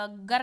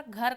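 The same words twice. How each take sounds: First: गर starting on unaspirated g; lost aspiration. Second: Said in the usual way. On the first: Shown as a demonstration. Teacher repeating the example, गर without aspiration. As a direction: say गर with no puff after g. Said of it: "महाप्राण को अल्प प्राण कर देना". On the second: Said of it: "महाप्राण को अल्प प्राण".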